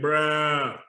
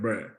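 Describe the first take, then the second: First: The word is long and exaggeratedly drawn out. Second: The word is said short, not drawn out. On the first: The speaker is reacting to a crazy story. "you'll give a long, exaggerated" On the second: The speaker has gotten into trouble. "if you get in trouble at the house"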